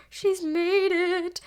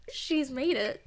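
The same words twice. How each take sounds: First: Slow, higher and louder, savouring each word; she's made it, dragged out with glee; drawn-out proud cheer. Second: Said in the usual way. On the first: Real, not acted. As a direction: stretch it out like a proud parent.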